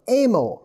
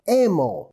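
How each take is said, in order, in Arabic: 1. للاسم نطق إنجليزي، يُشبه كلمة emo. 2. للاسم نطق إنجليزي، يُشبه كلمة emo.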